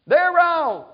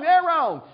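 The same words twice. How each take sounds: First: Loud, high "They're wrong"; mock indignant shout. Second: Loud, high "They're wrong" again mirrored; mock indignant shout. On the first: Preacher mocking an indignant member, loud and high. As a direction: blurt the blame back, mocking. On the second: Preacher mocking the other side's blame, loud and high. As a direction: fling the blame back, mocking.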